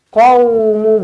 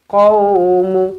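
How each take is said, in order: First: It starts with a deep throaty 'q' sound. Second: It starts with a deep throaty 'q' sound.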